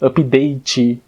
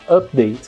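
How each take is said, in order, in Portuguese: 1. O final da palavra é dito com força. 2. O final da palavra é dito fracamente.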